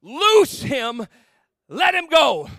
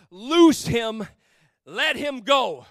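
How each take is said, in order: First: Loud, higher command ringing out; a firm call to free him; commanding cry. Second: Slow, measured scripture reading; solemn reading. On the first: Acted. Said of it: "Jesus says these words". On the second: Shown as a demonstration. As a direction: read the verse slowly and weightily. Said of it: "The scripture says it like this".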